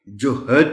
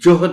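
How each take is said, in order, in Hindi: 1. 'h' और 'd' के बीच एक स्वर डाला जाता है। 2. 'h' के ठीक बाद सीधे 'd' आता है। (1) "जोहद नहीं है" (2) "इसकी हे पर जज्म है"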